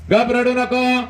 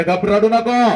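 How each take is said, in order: First: Very high, strained plea; mother's tearful plea. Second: High, loud pleading hush from the mother; a mother begging her son to stop crying; mother hushing child. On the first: Mother begging her son not to cry, high strained plea. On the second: Mother to crying son, a high loud pleading hush. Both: Acted. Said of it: "ती माऊली म्हणते".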